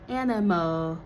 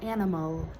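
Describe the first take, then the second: First: The final L is said as a vowel-like sound. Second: The final L is said as a clear consonant. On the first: The speaker calls it wrong. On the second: The speaker calls it right.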